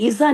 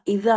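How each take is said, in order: First: The middle consonant is a buzzing z sound. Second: The middle consonant is a voiced th sound. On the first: The speaker calls it wrong. "नहीं, इजा नहीं" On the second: The speaker calls it right. "जबान को दांत के बाहर निकाले थोड़ा। जेड की साउंड नहीं आनी चाहिए"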